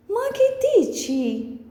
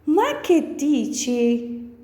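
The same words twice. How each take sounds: First: "Ma che dici" much higher, in disbelief; incredulous. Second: Said in the usual way. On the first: Shown as a demonstration. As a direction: throw out "Ma che dici?" as if you can't believe it. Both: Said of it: "Next one is".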